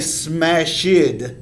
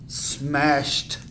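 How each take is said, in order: First: The ending sounds like a d. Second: The ending sounds like a t. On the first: The speaker calls it wrong. "We don't want to say smashed" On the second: The speaker calls it right. "Actually, it makes a tuh sound"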